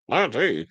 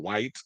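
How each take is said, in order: First: It is said as two separate letters. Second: It is said as the single word white. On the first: "people pronounce it Y T"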